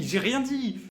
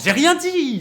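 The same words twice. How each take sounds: First: Said in the usual way. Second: Loud, high protest of innocence; mock protest. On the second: Streamer protesting to his chat, loud mock denial. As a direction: yelp it as if falsely accused.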